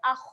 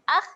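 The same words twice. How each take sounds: First: The kha sound is thick and heavy. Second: The kha sound is thin and light. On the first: The speaker calls it right. "Dia bunyi dia ah. Ah, ah tebalkan" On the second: The speaker calls it wrong. "Ah salah eh"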